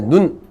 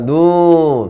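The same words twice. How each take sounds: First: The vowel is kept short. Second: The vowel is held long. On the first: It means eye. "사람 눈을 얘기하잖아요" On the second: It means snow. "길게 발음해라 이런 뜻이에요"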